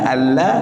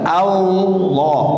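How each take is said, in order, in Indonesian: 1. Bunyi L-nya tipis dan ringan. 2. Bunyi L-nya tebal dan berat.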